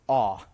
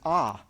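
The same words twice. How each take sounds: First: The vowel is said with rounded lips. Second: The vowel is an open unrounded ah. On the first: This is how it is said in New England. "the way that we say this letter in New England" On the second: This is how most of the rest of the country says it. "most of the rest of the country, this is an ah sound"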